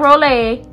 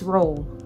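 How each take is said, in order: First: The name does not sound like roll. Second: The name sounds exactly like roll. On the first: The speaker calls it wrong. "No, it's not Rolle" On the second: The speaker calls it right. "it sounds exactly like the dinner roll"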